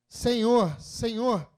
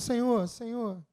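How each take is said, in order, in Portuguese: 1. Diz-se com uma voz desesperada e suplicante. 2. Diz-se com uma voz calma e simples. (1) "Essa entonação é de propósito" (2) "não foi um Senhor, Senhor"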